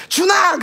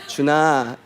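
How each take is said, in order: First: Much higher, louder cry of the name; angry yell. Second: Loving call. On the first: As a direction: yell the name like someone in trouble. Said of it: "a different tone in how the name is said". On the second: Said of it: "is already welcoming and loving". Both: Shown as a demonstration.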